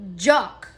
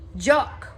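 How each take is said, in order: First: The vowel is a short 'o' like 'lock'. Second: The same.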